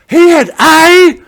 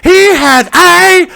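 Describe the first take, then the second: No difference in how they are said.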